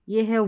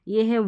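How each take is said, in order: Both takes have the same delivery.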